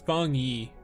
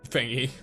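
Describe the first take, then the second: First: The first syllable sounds like 'fong'. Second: The first syllable sounds like 'fang'. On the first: The speaker calls it right. "Fong Yi is the correct, correct pronunciation" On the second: The speaker calls it wrong. "your pronunciation on Fangy is funny"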